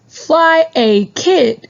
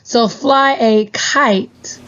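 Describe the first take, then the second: First: The last word has a short vowel sound. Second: The last word has a long vowel sound. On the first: The speaker calls it wrong. "short vowel I sound" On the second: The speaker calls it right. "with the long vowel. So that means I would say its name"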